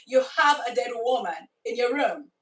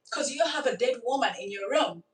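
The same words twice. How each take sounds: First: Said in the usual way. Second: Said through a laugh; amused disbelief with laughter. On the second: Real, not acted. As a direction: chuckle through the line. Laughs at the absurd situation.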